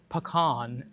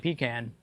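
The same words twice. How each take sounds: First: It is said in a posh, pretentious way. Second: The first part sounds like 'pee', then 'can'. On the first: It sounds like a snobbish upper-class person. "it sounds like pretentious" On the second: It sounds like a can you pee into. "it sounds like a can that you pee into"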